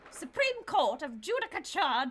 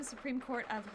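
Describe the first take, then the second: First: Louder, higher retake of the line; fuller restart. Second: Said in the usual way. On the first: Shown as a demonstration. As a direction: say it again with full voice.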